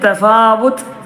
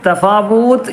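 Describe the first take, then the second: First: The vowel after the w is short. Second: The vowel after the w is long. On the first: The speaker calls it right. "ഫ മാത്രം നീട്ടിയാൽ മതി" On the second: The speaker calls it wrong. "തഫാവൂത്ത് എന്ന് പറയരുത്"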